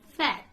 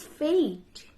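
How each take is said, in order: First: "fat" with a short A; short open vowel in "fat"; old mispronunciation. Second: "fate" with a long AY; correct pronunciation. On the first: Teacher recalls university mistake, "fat" said with short A. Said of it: "I used to pronounce this word". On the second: Teacher corrects an old mistake, "fate" with long AY. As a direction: draw "fate" out as FAYT. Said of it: "The word is fate". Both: Shown as a demonstration.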